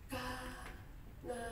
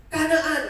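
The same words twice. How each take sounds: First: Soft, puzzled "Kanaan?" from the ruler; quiet wondering. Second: A servant's sharp, loud reply; loud "Kanaan" from the servant; loud answer. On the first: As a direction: softly echo "Kanaan?" as a question. Ruler repeats the name, wondering. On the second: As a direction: blurt the place name out loud. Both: Acted.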